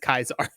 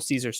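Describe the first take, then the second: First: The word begins with a K sound. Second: The word begins with an S sound. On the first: "she pronounces it properly as Kaisar" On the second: "they're still Little Caesars to her"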